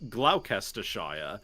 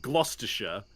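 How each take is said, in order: First: Every written syllable of the name is sounded out. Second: Several written syllables are dropped from the name. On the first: This is how the spelling suggests it sounds. The speaker calls it wrong. "the name looks like it's pronounced" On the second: This is how it is actually said. The speaker calls it right.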